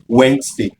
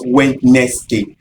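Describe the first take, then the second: First: Wednesday in two syllables, "WENZ-day"; correctly pronounced Wednesday. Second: Wednesday slowly sounded out as "wed-NES-day"; mispronounced Wednesday. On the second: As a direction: give Wednesday three syllables, voicing the middle "nes". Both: Shown as a demonstration. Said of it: "Ensure that your pronunciation of Wednesday is correct".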